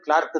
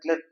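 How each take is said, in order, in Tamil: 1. இந்த உயிரொலி 'car' இல் உள்ளது போல் 'ar' என ஒலிக்கிறது. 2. இந்த உயிரொலி 'her' இல் உள்ளது போல் 'er' என ஒலிக்கிறது. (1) "அது உச்சரிப்பு வந்து கிளார்க்கு தான்" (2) "நம்ம எல்லாரும் கிளர்க் கிளர்க்குன்னே பழகிருப்போம்"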